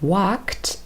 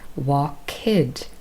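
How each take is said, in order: First: The ending is a plain t sound. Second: The ending is sounded as an extra syllable. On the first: The speaker calls it right. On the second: The speaker calls it wrong.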